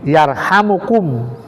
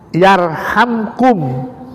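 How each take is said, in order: First: The m is followed by an u vowel. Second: The m has no vowel after it. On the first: It is a prayer that will not be rejected. "dihidupkan, dirofa" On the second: It is the answer to the command. "mimnya itu dijazmkan, dimatikan"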